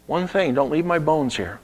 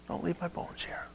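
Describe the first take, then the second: First: Said in the usual way. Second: Unvoiced hushed Don't leave my bones here; whispered last request. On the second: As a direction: breathe the dying wish.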